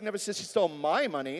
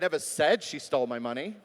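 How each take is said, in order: First: The word 'my' carries the main stress. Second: The word 'said' carries the main stress. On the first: The stolen money belonged to someone else. "It was somebody else's money" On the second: It was communicated some other way. "Maybe it was in an email"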